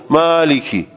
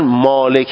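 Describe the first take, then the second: First: The word is said with an Arabic accent. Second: The word is said with a Persian accent. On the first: "خود عرب لحنش اینه" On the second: "لحن مالک هم میگی لحن فارسیه"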